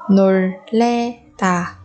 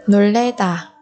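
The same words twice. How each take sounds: First: 놀래다 slowly, each syllable apart. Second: Said in the usual way. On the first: Shown as a demonstration. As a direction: break 놀래다 into drawn-out syllables. Teacher models word syllable by syllable.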